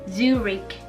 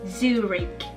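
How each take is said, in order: The two takes are said the same way.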